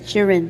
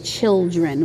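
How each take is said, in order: First: It is said without the L sound. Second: It is said with the L sound. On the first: This is how Liberian people say it. "There's no L. It's children" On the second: This is the standard way, not the Liberian way. "we don't really say children"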